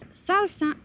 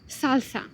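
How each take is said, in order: First: The s sounds are pronounced as s. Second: The s sounds are pronounced as th.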